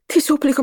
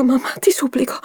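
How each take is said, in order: First: High, urgent begging cry; impulsive plea. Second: Whispered high plea; desperate whisper. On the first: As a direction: blurt out the plea to mother. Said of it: "esclamò d'impulso". (supplica acuta e d'impulso) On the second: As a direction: breathe the plea out to mother. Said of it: "con la faccia stravolta". (supplica sussurrata) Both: Acted.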